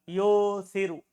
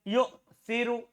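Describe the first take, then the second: First: The first vowel runs on without a glottal stop. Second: A glottal stop follows the first syllable. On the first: "Boleh ubah" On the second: "tetap hamzahnya"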